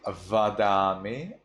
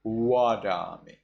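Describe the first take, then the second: First: Vadami starting with a buzzed V; vadami, crisp V onset, rising; standard V reading. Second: Wadami starting with a rounded W; wadami, W in place of V; Burmese W reading. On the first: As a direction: teeth on lip for the v of vadami. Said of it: "instead of vadami". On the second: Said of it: "V changes into wa". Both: Shown as a demonstration.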